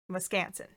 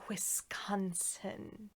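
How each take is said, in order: First: It is said with the local pronunciation. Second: It is said with the outsider pronunciation. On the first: The speaker calls it right. "that's how people from Wisconsin say it" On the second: The speaker calls it wrong. "They don't say Wisconsin"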